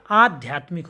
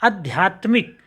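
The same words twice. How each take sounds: First: आध्यात्मिक with a long, weighted "aa" opening; stressed first vowel. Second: आध्यात्मिक begun short, as "adhyatmik"; wrong short first vowel. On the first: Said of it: "जोर दे रहे हैं". (आध्यात्मिक के आ पर ज़ोर) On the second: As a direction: keep the opening of आध्यात्मिक short. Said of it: "नहीं होता". (आध्यात्मिक का पहला आ छोटा) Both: Shown as a demonstration.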